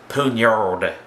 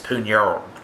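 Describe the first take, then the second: First: The final D is sounded clearly. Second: The final D is soft and light. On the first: This is the English pronunciation. "in English we pronounce it poignard with a D" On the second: This is the French pronunciation. "in French it's poignard, uh, kind of a soft D"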